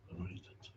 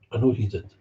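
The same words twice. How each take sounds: First: Whispered echo, breath only. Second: Said in the usual way. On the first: Real, not acted. Repeating it to himself in a whisper. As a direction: drop to a bare whisper.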